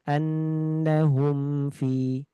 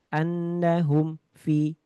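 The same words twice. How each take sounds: First: The m is clear, moderate, and flows on. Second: The sound breaks off after the m. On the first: The speaker calls it right. "Harusnya dibaca dengan pertengahan" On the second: The speaker calls it wrong. "Terputus. ... ada putus"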